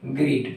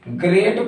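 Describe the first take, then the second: First: The vowel sounds like 'ee'. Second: The vowel sounds like 'ay'. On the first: The speaker calls it wrong. "ना कि ग्रीट पढ़ते हैं" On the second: The speaker calls it right. "तो हम इसे ग्रेट पढ़ते हैं"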